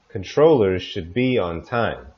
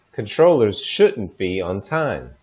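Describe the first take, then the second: First: Controllers should be on time with should reduced; natural rhythm. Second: Controllers shouldn't be on time with shouldn't stressed. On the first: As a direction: keep the sentence rhythm, should weak. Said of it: "with proper rhythm". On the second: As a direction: lean on shouldn't. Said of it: "if it was negative". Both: Shown as a demonstration.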